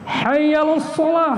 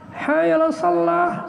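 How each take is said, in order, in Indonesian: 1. Bunyi l pada shalah pendek dan tunggal. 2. Bunyi l pada shalah ditahan dan ganda. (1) "mari kita salat" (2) "mari kita masuk keranjang"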